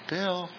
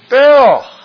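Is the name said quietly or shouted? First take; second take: quietly; shouted. First: The name is said quietly, without raising the voice. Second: The name is shouted loudly to get attention. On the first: The speaker calls it wrong. "You don't" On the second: The speaker calls it right. "is the idea"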